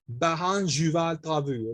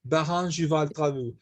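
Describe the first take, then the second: First: The phrase is said more slowly. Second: The phrase is said at normal speed.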